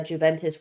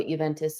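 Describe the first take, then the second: First: "Juventus" said with an English J, chu-VEN-tus. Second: "Juventus" said the Italian way with a Y sound, yoo-VEN-tus. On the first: Talking Arsenal news to viewers, "Juventus" with an English J, chu-VEN-tus. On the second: Correcting herself for viewers, "Juventus" as yoo-VEN-tus. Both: Shown as a demonstration. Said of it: "people hate when I say Juventus".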